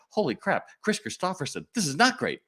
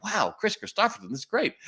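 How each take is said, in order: First: High, alarmed realization; the thrill flips to horror, not stressed; dawning panic. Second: High, thrilled and starstruck; starstruck excitement. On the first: Clerk finds the boots are the wrong size, high alarmed panic. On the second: Clerk hears a star is coming, high thrilled gush. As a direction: gush like a fan who can't believe it. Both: Retold or imitated.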